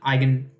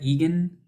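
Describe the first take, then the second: First: The word begins with 'eye'. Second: The word does not begin with 'eye'. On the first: The speaker calls it right. "pronounced like like gun from your eye, like eye gun" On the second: The speaker calls it wrong. "is that Egan?"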